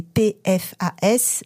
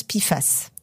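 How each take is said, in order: First: PFAS spelled letter by letter in French; French letter names for "P F A S"; spelled-out acronym. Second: "pifas" said as one word, pi-fass; "pifas" in two syllables, final S sounded; acronym as a word. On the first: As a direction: say P, F, A, S as four separate letters. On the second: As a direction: run PFAS together as "pifas", with an ee after the P. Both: Shown as a demonstration. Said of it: "mais on prononce pifas".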